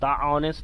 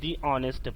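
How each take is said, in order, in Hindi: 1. 'The' को छोटे 'thuh' स्वर के साथ बोला जाता है। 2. 'The' को लंबे 'thee' स्वर के साथ बोला जाता है। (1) "द ऑनेस्ट नहीं" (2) "दी ऑनेस्ट पढ़ेंगे"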